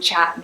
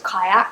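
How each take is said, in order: First: It is said as one short syllable. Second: It is said as two syllables. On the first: The speaker calls it right. "it's called chat" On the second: The speaker calls it wrong. "I thought it was kayak"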